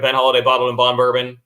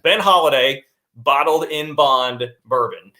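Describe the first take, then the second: First: It is said fast. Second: It is said slowly.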